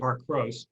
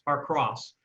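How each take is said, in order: First: The vowel in 'cross' is a long O. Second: The vowel in 'cross' is a short O. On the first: The speaker calls it wrong. "looks like it should be heart cross because there's only one S" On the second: The speaker calls it right. "it's like cross"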